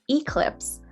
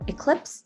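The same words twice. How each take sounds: First: The first sound is said tense and forceful. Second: The first sound is said soft and gentle. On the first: The speaker calls it wrong. "A lot of people will mispronounce this as eclipse" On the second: The speaker calls it right. "much more gentle"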